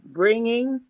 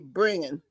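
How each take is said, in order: First: The word is said fully and carefully. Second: The word is said loosely with sounds dropped. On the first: "instead of saying" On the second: "what my grandmother used to call a lazy tongue"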